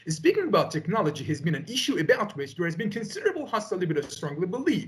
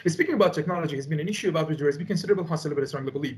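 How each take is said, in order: First: Fluent recitation with clearer, livelier intonation; measured, with intonation. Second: Rapid-fire. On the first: Student showing the tutor the improved delivery, less rushed with intonation. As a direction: let the phrases rise and fall, without rushing. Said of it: "This way I can have intonation". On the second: Student demonstrating to the tutor the too-fast exam delivery, rapid-fire. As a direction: rattle it off very fast without a breath. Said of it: "this one is in a fast way". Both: Shown as a demonstration.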